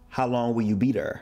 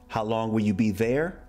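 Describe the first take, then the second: First: The word 'there' has a dragged Saint Louis R. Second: The word 'there' is said the standard way.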